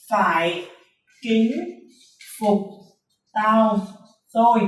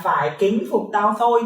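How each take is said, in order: First: Mnemonic spoken one word at a time, pauses between. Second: Said in the usual way. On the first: Shown as a demonstration. Teacher giving students rule number one, word by word with pauses. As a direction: space out each word of "Phải kính phục tao thôi". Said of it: "Chúng ta có nguyên tắc số một".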